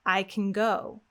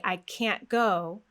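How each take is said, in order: First: CAN as k'n, GO stressed; vowel dropped in can. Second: Slow, stressed CAN'T with cat's vowel; a sound in can't. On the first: Teacher showing the positive sentence, vowelless CAN. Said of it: "We get rid of the vowel". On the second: Teacher showing the negative sentence, full-vowel CAN'T. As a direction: keep the full A in CAN'T, stretched. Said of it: "we have the a sound". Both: Shown as a demonstration.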